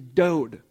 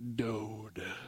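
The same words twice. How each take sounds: First: It is said in a normal speaking voice. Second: It is said in a put-on sultry radio voice.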